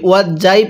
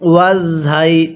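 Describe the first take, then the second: First: The letter is pronounced with a 'j' sound. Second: The letter is pronounced with a 'z' sound. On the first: The speaker calls it wrong. "অনেকেই আমরা এই ঝাটাকে জিম উচ্চারণ করি" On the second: The speaker calls it right. "কিভাবে পড়তে হবে?"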